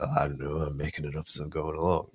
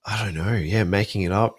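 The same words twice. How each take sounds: First: Weak impression of a film hero; quick offhand hero line, lightly voiced; terrible Harrison Ford. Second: Said in the usual way. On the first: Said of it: "that's a terrible Harrison Ford, uh, with my Australian accent as well". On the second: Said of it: "that's a terrible Harrison Ford".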